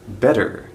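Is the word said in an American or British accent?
American. It has an American accent with a flapped T. "if you can pronounce English like an American"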